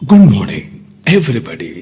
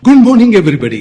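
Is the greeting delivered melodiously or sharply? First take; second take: melodious; sharp. First: It is said sweetly with smooth, melodic modulation. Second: It is said crisply with a sharp, brisk edge. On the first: It suits a documentary narration. "அந்த வார்த்தைக்கு ஏற்ற modulation கொடுத்து இனிமையாக பேசணும்" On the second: It suits a company conference meeting. "கொஞ்சம் ஷார்ப்பாக பேசணும்"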